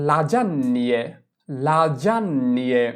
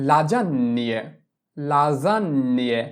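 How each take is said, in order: The two takes are said the same way.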